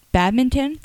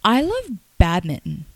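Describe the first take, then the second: First: Badminton? said as pad-min-ton with a questioning rise; Badminton? with a voiceless p-like start, rising; mispronounced badminton. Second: Said in the usual way. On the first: Real, not acted. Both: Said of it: "How is that called?".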